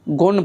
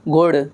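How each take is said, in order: First: The word ends in an n sound. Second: The word ends in a flapped r sound. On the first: The speaker calls it wrong. "गुण पढ़ते हैं हम" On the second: The speaker calls it right. "जैसे गुड़"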